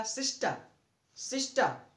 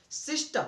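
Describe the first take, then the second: First: सिस्टर with no र at the end; correct pronunciation. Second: सिस्टर with a rolled Hindi र at the end; the wrong way, सिस्टर ending in र; wrong pronunciation. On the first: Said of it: "क्या होगा? ... ये होगा।". (सिस्टर बिना र के, सही तरीका) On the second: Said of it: "ऐसा नहीं होगा". (सिस्टर, अंत में र के साथ, गलत तरीका) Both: Shown as a demonstration.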